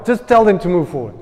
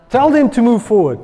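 First: Casual, easygoing retelling of God's command; Henny version. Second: Commanding God. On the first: Pastor retelling God's words his own way, casually. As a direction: toss it off lightly, like an everyday chat. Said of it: "That's the Henny version". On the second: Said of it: "And God says". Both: Acted.

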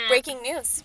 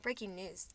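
First: Second try at newsreader delivery; punchy anchor opening line; news anchor voice. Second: Failed newsreader attempt; news anchor voice. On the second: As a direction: try a newscaster read and flub it. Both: Shown as a demonstration. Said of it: "I wanna practice my news anchor voice".

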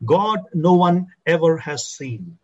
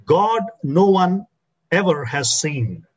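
First: "God" leads, "no one ever has seen" slow and steady; stress on God. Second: "God" set first and held, then "no one ever has seen" slow; stress on God. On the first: Preacher repeating the verse for his church, weight on "God". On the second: Preacher reading the verse to his church, weight on "God". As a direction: lean on "God" and let "no one" rise. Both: Shown as a demonstration. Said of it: "The emphasis there is on the word God".

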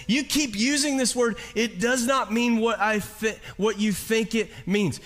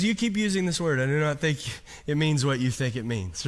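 First: "You keep using this word" in a higher, plainer retelling; lightly retold movie line, pitched up; quoting Inigo Montoya. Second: Put-on a light, understated Spanish accent on "You keep using this word"; a hint of Inigo Montoya's Spanish accent. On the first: Preacher requoting the movie line to the congregation, higher. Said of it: "He says". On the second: Preacher imitating a movie swordsman, light Spanish accent. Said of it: "You like my accent in that".

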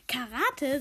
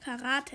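First: Mildly puzzled echo; baffled. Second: Said in the usual way. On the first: A narrator's reading. Husband hears about his wife's new course, baffled. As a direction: repeat it as a surprised question. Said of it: "sagt Mohammed verdutzt". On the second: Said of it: "erklärt Barbro Palm".

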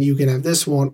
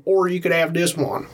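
First: One variety of Texas accent; Texas accent, first kind. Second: Another variety of Texas accent; Texas accent, second kind. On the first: Comparing two accents for a co-host, first Texas accent. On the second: Comparing two accents for a co-host, contrasting Texas accent. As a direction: switch to a different Texas twang. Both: Shown as a demonstration. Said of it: "to put it in a Texas accent".

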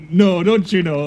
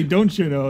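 First: Said in the usual way. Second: Tossed-off don't you know; a habit phrase, lightly voiced; catchphrase demo. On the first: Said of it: "I just say". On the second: Shown as a demonstration. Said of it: "like that".

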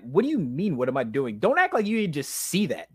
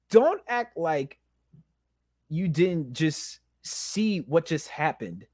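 First: Pissed-off retort. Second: Slow, pointed, broken-up accusation; pissed-off slow repeat. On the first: Man retelling his argument with God, pissed-off protest. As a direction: throw the question back, annoyed and incredulous. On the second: Man retelling his argument with God, slow indignant accusation. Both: Retold or imitated. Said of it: "I'm like, I'm pissed off".

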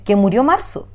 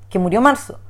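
First: "Marzo" lifted at the end as a question; retold question, rising on "Marzo"; asking. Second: "murió Marzo" stated as confirmed news; retold confirmation of "murió Marzo"; affirming. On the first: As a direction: ask it, tune rising on "Marzo". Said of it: "Primero me hizo la pregunta". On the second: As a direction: affirm it, "Marzo" said as settled fact. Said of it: "después me afirma".

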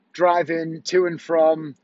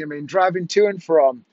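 First: Driving to and from, dragged out slowly with tired pauses; slow weary repeat. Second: Said in the usual way. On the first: Real, not acted. Husband weary of the rushed day, slow and drawn out. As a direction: let driving to and from sag out slowly.

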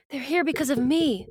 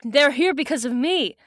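First: Lightly voiced young heroine; Cassie. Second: Put-on first try at a girl's character voice; a voice that misses the intended character; slightly raised, off-target character voice; botched character voice. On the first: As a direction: lift the pitch for a guilt-ridden heroine. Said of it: "That's my Cassie voice". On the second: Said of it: "that's not my Cassie voice".

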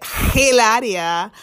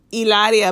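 First: Mock the heavy-H Hilaria; mispronounced Spanish name. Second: Hilaria said with a silent H; Hilaria, no H at the front; standard pronunciation. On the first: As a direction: huff a heavy H onto Hilaria, drawn out. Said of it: "which is not a Spanish pronunciation". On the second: Shown as a demonstration. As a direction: say Hilaria starting straight on the vowel. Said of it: "but she pronounces it Hilaria".

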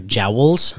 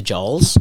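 First: "jowls" with the "ow" diphthong; careful "ow" in "jowls"; corrected "jowls". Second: "jowls" said with an open "aw" vowel, like "jawls"; slow "jowls" with a long "aw"; slip on "jowls". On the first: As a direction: say "jowls" to rhyme with "owls". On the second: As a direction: say "jowls" to rhyme with "crawls". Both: Real, not acted. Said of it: "like, the, sorry".

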